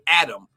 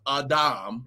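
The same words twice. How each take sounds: First: The name has the usual English pronunciation. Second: The name has the Hebrew pronunciation. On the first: "we in the English, King James English descendants say Adam" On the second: "But it was pronounced Adam. In the Hebrew"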